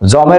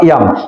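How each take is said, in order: First: The word begins with a j sound. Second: The word begins with a y sound. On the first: The speaker calls it wrong. "জমের উচ্চারণ কি হবে?" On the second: The speaker calls it right. "জয়ের উচ্চারণ হলো ইয়াম"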